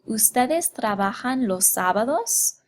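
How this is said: The pitch rises toward the end. It asks a question. "raise the pitch of our voice toward the end. So it would sound like this"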